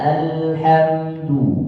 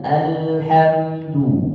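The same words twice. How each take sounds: First: The opening vowel sounds thin and light. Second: The opening vowel sounds thin and light.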